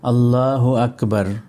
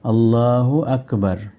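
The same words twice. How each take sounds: First: The last word ends on the r consonant. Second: The last word ends on the r consonant.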